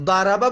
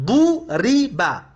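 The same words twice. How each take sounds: First: Said in the usual way. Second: ضرب said slowly as du-ri-ba; u on the first syllable of ضرب, i on the second; passive vowels. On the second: Shown as a demonstration. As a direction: sound out ضرب as "duriba", syllable by syllable.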